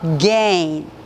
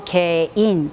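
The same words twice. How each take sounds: First: It is said in a reduced, native English style. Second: It is said in a Korean style with full syllables. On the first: The speaker calls it right. "again 이렇게 읽게 되죠" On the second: The speaker calls it wrong. "보통 우리가 again 이렇게 발음하시지만"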